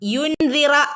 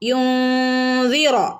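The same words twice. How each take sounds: First: The n is pronounced clearly, not hidden. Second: The n is hidden with a nasal hum. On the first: The speaker calls it wrong. "യുൻസിറ എന്ന് ഓതില്ല" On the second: The speaker calls it right. "ഇഖ്ഫാ ചെയ്ത് ഓതണം"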